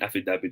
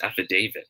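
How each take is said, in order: First: The 'da' syllable has a short, plain vowel. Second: The 'da' syllable is said like 'day'. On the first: The speaker calls it wrong. "sabi natin affidavit of loss" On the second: The speaker calls it right. "it should be pronounced as affidavit"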